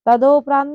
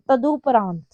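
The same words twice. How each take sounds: First: तदोपरांत with an o after द; wrong pronunciation. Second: तदुपरांत with u after द; correct pronunciation. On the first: Teacher showing students the error, तदोपरांत with o. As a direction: say तदोपरांत, long o in the middle. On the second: Teacher correcting students' error, तदुपरांत with u. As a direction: say तदुपरांत, u in the middle. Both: Shown as a demonstration. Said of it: "तदोपरांत नहीं होता".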